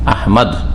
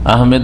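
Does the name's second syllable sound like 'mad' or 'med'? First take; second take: mad; med. First: The second syllable is said as 'mad'. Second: The second syllable is said as 'med'. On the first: This is the original Arabic form of the name. The speaker calls it right. "শুদ্ধ করে নাম বলেন" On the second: This form comes from the English spelling. The speaker calls it wrong. "আহমেদ নাই"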